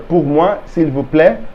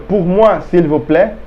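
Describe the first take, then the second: The two takes are said the same way.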